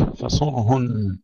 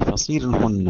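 First: فصرهن with a ص carrying a clear u; فصرهن: say it fasurhunna with a damma; damma on sad. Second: فصيرهن with a ص carrying i and a light ر; فصيرهن: fasirhunna, i on the ص, thin ر; kasra on sad. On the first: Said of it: "قرأ حمزة بكسر الصاد". (فصرهن بضم الصاد) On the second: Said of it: "قرأ حمزة بكسر الصاد ويلزم منه ترقيق الراء". (فصرهن بكسر الصاد وترقيق الراء) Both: Shown as a demonstration.

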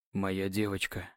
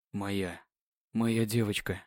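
First: Hoarse voice. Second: Tender. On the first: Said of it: "Его голос охрип от возбуждения". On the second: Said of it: "трепетно звучало". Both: Acted.

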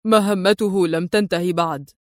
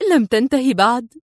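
First: Low, measured firm statement; firm answer. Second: Rising, incredulous echo question; astonished exclamation. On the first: Adib answering her about Adham's mission, firm. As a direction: state it firmly, pitched low. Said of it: "يجيب في حزم". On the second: Woman startled by the unfinished mission, astonished question. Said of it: "هتفت في دهشة". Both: A narrator's reading.

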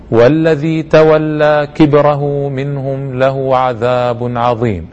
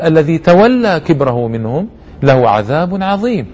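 First: Slow chanted Quran recitation. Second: Said in the usual way. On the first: Acted. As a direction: chant the verse slowly, tajweed style. Recites the verses.

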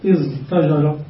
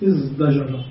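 First: ازدجر said with a plain t, "iztajara"; original form. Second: ازدجر said softly with d, "izdajara"; t changed to d. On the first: Teacher asks students, giving the unchanged form with t. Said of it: "فنقول في زجر ماذا". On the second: Teacher quietly gives students the final form with d. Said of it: "فنحول التاء دالا فنقول". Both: Shown as a demonstration.

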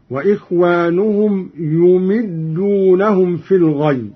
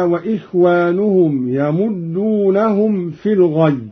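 First: "يمدونهم" as yumiddūnahum; damma and kasra. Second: Said in the usual way. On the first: Shown as a demonstration. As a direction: recite "يمدونهم" with u on the ya and i on the meem. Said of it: "بضم الياء وكسر الميم هكذا". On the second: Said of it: "بضم الياء وكسر الميم".

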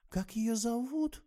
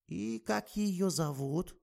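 First: Put-on much higher, slow anxious little girl; a touch of worry in it; slightly worried. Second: Put-on slow, high drowsy old woman; sleepy. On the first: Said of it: "с лёгким беспокойством повторила". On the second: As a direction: ask while nodding off. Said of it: "сонно поинтересовалась старуха". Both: A narrator's reading.

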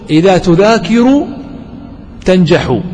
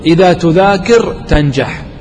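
First: "تذاكر" and "تنجح" each ending in a voiced -u; without jazm. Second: "تذاكر" and "تنجح" cut to bare consonant endings, slowly; with jazm. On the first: Teacher showing students the allowed form, "تذاكر تنجح" with -u endings. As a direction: sound the damma: "تذاكر" ends -ru, "تنجح" ends -hu. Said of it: "لكن بدون جزم". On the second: Teacher showing students the forbidden form, "تذاكر تنجح" with sukun endings. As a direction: end "تذاكر" on r and "تنجح" on h, no vowels. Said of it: "يعني لا يجوز أن تقول". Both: Shown as a demonstration.

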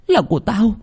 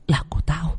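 First: Much higher, rising demonic claim on là của tao; possessed cry. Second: Higher, softer eerie murmur on là của tao; possessed hiss. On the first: Possessed girl claims the heart at her reflection, much higher. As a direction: fling it out high and possessive. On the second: Possessed girl whispers to her mirror, higher and softer. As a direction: creep it out in a soft otherworldly voice. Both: A narrator's reading. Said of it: "nhìn mình trong tấm gương".

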